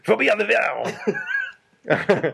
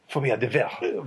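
First: It is said with a heavy, throaty French accent. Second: It is said plainly, without heavy throaty sounds.

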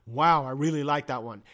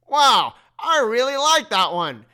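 First: It is said in a calm, plain way. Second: It is said in a gushing, starstruck way.

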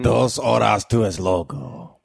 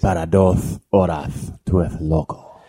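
First: It is said without a Spanish accent. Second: It is said with a Spanish accent. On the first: The speaker calls it wrong. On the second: The speaker calls it right.

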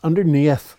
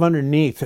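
First: The word is said in an Irish accent. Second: The word is said in a standard accent. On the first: "it's underneath" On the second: "Instead of underneath"

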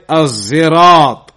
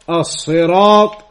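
First: The word has a z sound instead. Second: The word has a heavy, emphatic s sound. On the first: "and with a zai" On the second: "With a sod"

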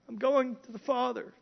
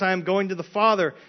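First: It is said in a whiny, complaining voice. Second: It is said in a plain, unwhiny voice.

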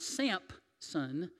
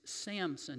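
First: The name is said with a p sound. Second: The name is said without a p sound. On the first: The speaker calls it wrong. "not Sampson ... Samson with a P" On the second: The speaker calls it right. "it's Samson"

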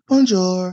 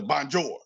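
First: It is said lightly, the French way. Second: It is said with an American accent.

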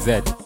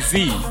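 First: The letter is pronounced zed. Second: The letter is pronounced zee. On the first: This is how locals say it. "We say Z" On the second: This is how Americans say it. "Americans say Z"

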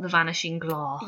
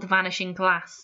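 First: The vowel in 'glass' is a long A. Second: The vowel in 'glass' is a short A. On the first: The speaker calls it wrong. "the thing that we don't do is the long A" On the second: The speaker calls it right. "the next chapter is called"

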